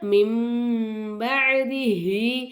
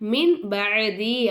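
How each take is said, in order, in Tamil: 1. b க்கு முன் உள்ள சொல் m ஒலியில் முடிகிறது. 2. b க்கு முன் உள்ள சொல் n ஒலியில் முடிகிறது. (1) "மிம் பஅதிஹி அப்படின்னு நம்ம ஓதணும்" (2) "மின் பஅதி அப்படின்னு சொல்லாமல்"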